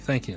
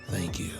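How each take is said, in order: First: It is said in a plain, casual tone. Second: It is said in a seductive, suggestive tone. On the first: The thanks is simple workplace politeness. "or did he just say" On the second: The thanks carries a romantic or sexual interest. "Did he say it in the sexual way?"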